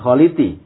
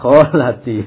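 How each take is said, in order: First: The middle vowel sounds like i. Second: The middle vowel sounds like a. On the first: The speaker calls it wrong. "Bukan kholiti" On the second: The speaker calls it right. "ya kholati"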